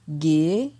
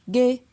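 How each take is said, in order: First: The syllable has a rising tone. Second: The syllable has a mid tone. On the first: "ton montant" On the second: "ton moyen"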